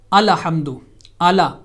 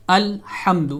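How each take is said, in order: First: الحمد with a zabar on lam, ala-hamd; wrong Alhamd. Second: الحمد with a silent lam, al-hamd; correct Alhamd. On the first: Teacher mimics common mistake, vowel on lam. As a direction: add a vowel after the lam in الحمد, alahamd. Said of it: "غلط انداز میں اگر پڑھیں گے". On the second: Teacher reads correct الحمد, lam with sukoon. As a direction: close the lam in الحمد with no vowel. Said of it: "پہلا لفظ جو ہے وہ الحمد ہے". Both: Shown as a demonstration.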